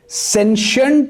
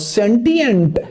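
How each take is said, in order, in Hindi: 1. दो syllable, 'sh' की आवाज़ के साथ, अमेरिकन एक्सेंट। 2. तीन सिलेबल, 't' की आवाज़ के साथ, ब्रिटिश एक्सेंट। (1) "ये यूएस एक्सेंट में" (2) "ये यूके एक्सेंट में"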